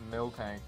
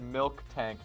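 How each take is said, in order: First: No k sound is heard before 'tank'. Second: A k sound is heard before 'tank'. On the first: The speaker calls it right. "it's always been Miltank, just without the K" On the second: The speaker calls it wrong. "I thought you literally just said milk tank"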